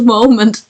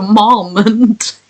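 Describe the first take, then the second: First: Said in the usual way. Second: "moment" with its first syllable changed to match "mom"; altered pronunciation. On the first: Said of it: "'Cause I changed mom to". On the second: Shown as a demonstration. Streamer showing the word the edit broke, altered pronunciation. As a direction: stretch "moment" out, starting it like "mom". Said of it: "It changed moment to moment".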